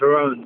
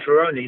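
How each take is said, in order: First: The name ends without a final 'ee' vowel. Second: The name ends with a final 'ee' vowel. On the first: This is the official spelled form of the name. "my name's Ferrone, they don't understand it" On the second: This is the original form friends used. "if I say Ferroni, they get it right away"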